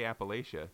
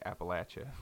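First: The third syllable sounds like 'lay'. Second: The third syllable sounds like 'latch'. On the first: The speaker is marked as an outsider. The speaker calls it wrong. "And if you say Appalachia, they know a lot" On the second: The speaker is trusted by the locals. The speaker calls it right. "if you want people who live there to trust you, you're going to say Appalachia"

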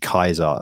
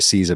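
First: The word begins with a hard K sound. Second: The word begins with a soft S sound. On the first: This is how it was pronounced in Latin. "but it's actually Kaiser" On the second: This is the usual modern English pronunciation. "like we always say Caesar"

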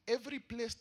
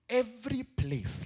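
First: The words are read at a normal pace. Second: The words are read slowly.

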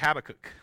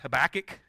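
First: The name is said the non-Southern way. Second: The name is said the Southern US way.

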